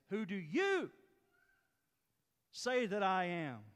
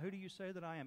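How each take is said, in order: First: The word 'you' is strongly emphasized. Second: The word 'you' carries no special emphasis. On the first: The speaker calls it right. "It's ... Because the "you" in Greek is emphatic" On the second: The speaker calls it wrong. "It is not"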